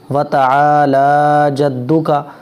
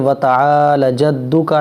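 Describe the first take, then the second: First: The vowel after the 'l' is long. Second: The vowel after the 'l' is short. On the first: The speaker calls it right. "यहाँ लाम खींचेगा।" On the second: The speaker calls it wrong. "आमतौर पर ये गलती करते हैं लोग कि ... लाम को खींचते नहीं, गलत हो जाता है"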